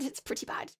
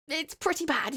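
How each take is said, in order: First: Hushed, self-deprecating echo; whispered aside. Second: Said in the usual way. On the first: Real, not acted. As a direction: drop to a near-whisper. Muttered repeat of own verdict.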